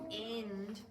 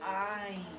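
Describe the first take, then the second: First: The i vowel is short, as in fin. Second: The i vowel is long, as in fine. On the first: The speaker calls it wrong. "We don't say find" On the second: The speaker calls it right. "We say find"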